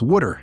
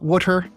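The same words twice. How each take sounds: First: It is said in a Philadelphia accent. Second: It is said in a general American accent.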